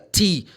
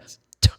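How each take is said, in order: First: It is said as the full letter name. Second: It is said as a short bare consonant. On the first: The speaker calls it wrong. "que T é a letra" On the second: The speaker calls it right. "é o som, é t"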